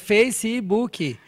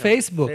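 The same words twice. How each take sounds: First: It is said the Portuguese way, with extra vowels. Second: It is said the English way, two syllables. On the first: "Em português é Facebook" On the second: "são duas sílabas"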